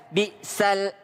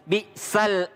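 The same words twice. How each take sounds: The two takes are said the same way.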